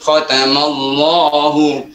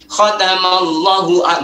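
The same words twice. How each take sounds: First: The vowel after the 'l' is long. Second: The vowel after the 'l' is short. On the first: The speaker calls it right. "tapi tetap khotamallahu" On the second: The speaker calls it wrong. "bukan berarti bacanya gini"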